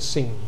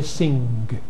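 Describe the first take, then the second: First: The word ends in ng with no g. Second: The word ends in ng followed by a g. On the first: "G has dropped off and you get sing" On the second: "where people still say sing"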